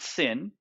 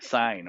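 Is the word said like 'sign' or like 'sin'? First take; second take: sin; sign. First: It is said with a short vowel, like 'sin'. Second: It is said with a long vowel, like 'sign'. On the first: The speaker calls it wrong. "It's not sin" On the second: The speaker calls it right. "It's a sign"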